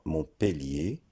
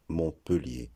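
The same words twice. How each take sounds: First: "Montpellier" with an é sound, mon-pé-lié; mon-PÉ-lié variant of "Montpellier"; E pronounced é. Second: Mon-PE-lié variant of "Montpellier"; E pronounced as schwa. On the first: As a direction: say "Montpellier" slowly with a clear é before the l. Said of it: "le E se prononce E". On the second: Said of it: "est prononcé de différentes façons". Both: Shown as a demonstration.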